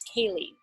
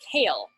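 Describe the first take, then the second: First: The name is said as two syllables. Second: The name is said as one syllable. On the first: This is how the person actually says the name. The speaker calls it right. "But it's Kaylee" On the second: This is how the written name looks at first glance. The speaker calls it wrong. "this person's name looks like to me like Kale"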